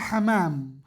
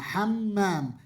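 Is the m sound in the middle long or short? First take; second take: short; long. First: The middle m sound is single and short. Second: The middle m sound is doubled and long. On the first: The speaker calls it wrong. "Laisa hamam" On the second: The speaker calls it right. "Maksudnya hammam"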